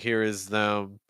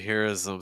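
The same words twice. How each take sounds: First: The th in 'them' is firm and clear. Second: The th in 'them' is soft and light.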